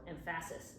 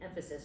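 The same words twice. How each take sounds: First: The stress falls on an unusual syllable. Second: The stress falls on the usual syllable. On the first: The speaker calls it wrong. "If you said that, it would be like that's weird" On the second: The speaker calls it right. "you can say emphasis"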